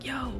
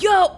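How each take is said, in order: First: It is said quietly, to herself. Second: It is said loudly and excitedly.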